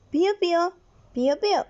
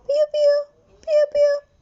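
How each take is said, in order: First: "piu, piu" said lightly, only a little raised; a half-hearted chick peep, close to the speaking voice; mild chick chirps. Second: Very high, loud, squeaky chick peeps "piu, piu"; chick chirps. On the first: Teacher naming the chick's sound, lightly imitated chirp. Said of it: "El sonido del pollito es". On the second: Teacher showing the chick's call, very high chirping. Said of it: "Cochuauche e yurú". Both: Shown as a demonstration.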